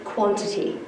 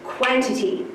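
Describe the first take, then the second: First: The first vowel sounds like an O. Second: The first vowel sounds like the letter A. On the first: It is the normal way to say the word. "If I was to use my reading voice" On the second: It helps to remember how the word is spelled. "If I was to use my spelling voice"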